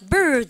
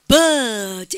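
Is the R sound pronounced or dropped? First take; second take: pronounced; dropped. First: American accent, with the R sounded. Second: British accent, R dropped, vowel lengthened.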